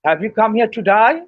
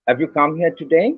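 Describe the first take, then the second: First: It is said in an Australian accent. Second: It is said in a standard British accent. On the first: "the Australasians would say" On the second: "That would be in R P"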